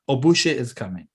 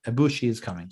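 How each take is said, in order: First: Ibushi with a slipped ending, "oh-BOO-shuh"; botched Ibushi, last vowel an "uh" instead of "ee"; mispronounced name. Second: Said in the usual way. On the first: Real, not acted.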